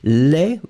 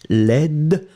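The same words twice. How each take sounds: First: It ends on the vowel, with no D sound. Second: It ends with a soft D sound. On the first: The adjective is masculine. "Final day is not pronounced at all" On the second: The adjective is feminine. "you will pronounce the D ... So it's really soft"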